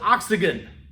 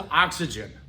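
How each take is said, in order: First: It is said with a regional mispronunciation. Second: It is said with the standard pronunciation. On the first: The speaker calls it wrong. "My mother's family also calls it oxygen" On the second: The speaker calls it right. "The correct pronunciation is oxygen"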